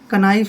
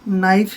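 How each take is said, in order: First: The word starts with a k sound. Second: The word starts without a k sound. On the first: The speaker calls it wrong. "कनाइफ नहीं पढ़ना है" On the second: The speaker calls it right. "के silent है"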